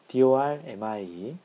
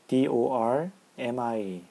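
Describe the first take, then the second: First: The R letter is pronounced with a light curl. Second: The R letter is pronounced with a heavy curl.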